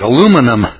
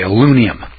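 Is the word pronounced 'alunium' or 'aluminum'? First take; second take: aluminum; alunium. First: The word is said as 'aluminum', in full. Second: The word is said as 'alunium', dropping sounds. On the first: The speaker said it this way. "I said" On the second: Someone else said it this way. "As old Larry Sykes used to say"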